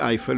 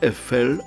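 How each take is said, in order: First: The name is pronounced the Polish way. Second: The name is pronounced the French way. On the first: The speaker calls it wrong. "a nie Eiffel, jak my to mówimy" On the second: The speaker calls it right. "Francuzi mówią La Tour Eiffel, czyli wymawiają nazwisko konstruktora Eiffel"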